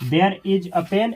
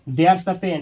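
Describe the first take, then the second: First: The words 'there' and 'is' are said separately. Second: The words 'there' and 'is' merge into 'there's'.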